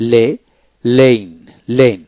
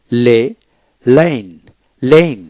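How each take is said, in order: Both takes have the same delivery.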